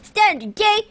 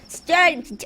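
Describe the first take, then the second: First: It is said in a put-on character voice. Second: It is said in his ordinary own voice.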